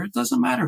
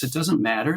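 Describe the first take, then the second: First: Higher, exasperated repeat of it doesn't matter; second take, leaping up in mock exasperation; pissy dismissal. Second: Said in the usual way. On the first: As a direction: throw it away, annoyed with yourself. Retold inner grumbling about the piece.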